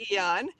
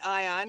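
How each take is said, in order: First: The word begins with an 'ee' sound. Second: The word begins with an 'eye' sound. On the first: The speaker calls it right. "the proper pronunciation I found out is Eon" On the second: The speaker calls it wrong. "Some people say Ion"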